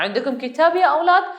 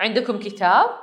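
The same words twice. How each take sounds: First: Lightly voiced teacher, higher and brighter rising question; teacher asking children. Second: Said in the usual way. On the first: Teacher asking the children if they have books, a lightly acted rising question. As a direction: call out to the class like a teacher checking for books. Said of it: "ഒരു teacher ചോദിക്കുകയാണ് കുട്ടികളുടെ അടുത്ത്". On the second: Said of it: "ഒരു teacher ചോദിക്കുകയാണ്".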